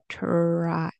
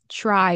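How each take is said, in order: First: It begins with a clear t sound. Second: It begins with a ch sound. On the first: "It feels weird for me to say it like a T" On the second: "pronounced as a ch sound and a r sound"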